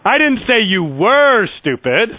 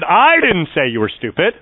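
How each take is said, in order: First: The stress falls on the word were. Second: The stress falls on the word I. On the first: The listener is stupid now. "I'm saying you are stupid" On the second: Someone else said it. "that meant someone else said that you were stupid"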